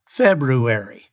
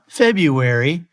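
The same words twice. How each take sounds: First: The r after the b is pronounced. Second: The r after the b is dropped. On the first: The speaker calls it right. "There's also an R in February" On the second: The speaker calls it wrong. "It's not February"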